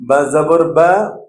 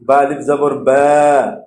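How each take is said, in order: First: Final "বা" short, unstretched; short harakat. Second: Final "বা" held long; stretched madd. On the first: Teacher drilling harakat without stretch, short final "বা". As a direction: cut the vowel of final "বা" short. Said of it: "টান ছাড়া উচ্চারণ করতে হবে". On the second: Teacher drilling madd with stretch, long final "বা". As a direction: draw out the vowel of final "বা". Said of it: "মদের হরফ টান দিয়ে উচ্চারণ". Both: Shown as a demonstration.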